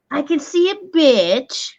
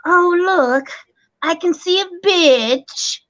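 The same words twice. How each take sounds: First: Said in the usual way. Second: TikTok filter voice. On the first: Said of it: "but it's saying". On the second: Retold or imitated. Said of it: "and they go".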